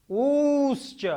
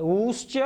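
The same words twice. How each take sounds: First: ऊश्च with the ऊ held three beats, pitched up high; drawn-out pluta vowel. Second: ऊश्च with a quick short ऊ; short vowel. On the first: Teacher to students, ऊश्च with a triple-length ऊ. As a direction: call out ऊश्च, dragging the ऊ long and high. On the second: Teacher to students, ऊश्च said short. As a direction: clip the ऊ in ऊश्च short and light. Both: Shown as a demonstration. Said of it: "उकालो झ्रस्व दीर्घ पुलुतः".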